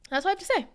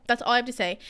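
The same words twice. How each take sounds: First: Pitched up high on "that's all I have to say", falling on "say"; first take, voice jumps high and lands on "say"; high emphatic take. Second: Said in the usual way. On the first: Shown as a demonstration.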